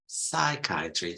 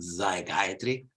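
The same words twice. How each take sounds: First: The first S sound is voiceless, a clear s. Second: The first S sound is voiced, like z. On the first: The speaker calls it right. "first S is always voiceless" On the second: The speaker calls it wrong. "not psychiatry"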